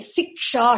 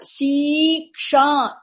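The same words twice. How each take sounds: First: The first vowel is kept short. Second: The first vowel is held long. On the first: This is the conventional form. The speaker calls it right. "It should be Siksha, short" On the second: This is the Vedic form. The speaker calls it wrong. "The long vowel must be made a short vowel. Not Siksha, which is wrong in conventional language"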